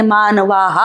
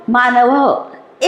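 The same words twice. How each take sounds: First: मानवाः with a stretched aa before the lower ending; long final aa. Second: मानवः said slowly with a short a before ः; short final vowel. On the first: Teacher shows pupils the plural, long aa in मानवाः. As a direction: draw out the end of मानवाः as "vaa-haa". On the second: Teacher reads the singular for pupils, short final vowel in मानवः. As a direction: keep the last a of मानवः short. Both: Shown as a demonstration. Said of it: "आ की मात्रा लगानी है".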